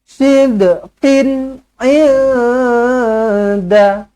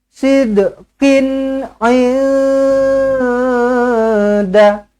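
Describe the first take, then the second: No difference in how they are said.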